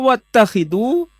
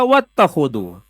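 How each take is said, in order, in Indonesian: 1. Vokal setelah kh adalah i. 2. Vokal setelah kh adalah a. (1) "bisa dibaca wattakhidu" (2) "bisa dibaca wattakhodu"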